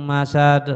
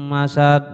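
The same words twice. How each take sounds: No difference in how they are said.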